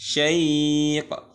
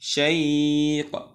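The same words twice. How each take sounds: No difference in how they are said.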